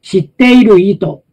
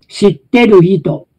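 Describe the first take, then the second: Both takes have the same delivery.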